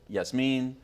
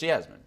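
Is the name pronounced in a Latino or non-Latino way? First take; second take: Latino; non-Latino. First: The name is pronounced with Latino sounds. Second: The name is pronounced without Latino sounds. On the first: The speaker calls it wrong. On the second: The speaker calls it right. "but it's Yasmin"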